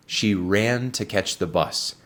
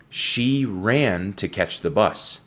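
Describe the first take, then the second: First: Said in the usual way. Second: Each word spelled out slowly for learners; slow model sentence. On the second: Shown as a demonstration. Teacher reading the sentence slowly to students, very slow. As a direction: read it slowly so students catch every sound. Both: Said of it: "escucha la pronunciación muy atentamente".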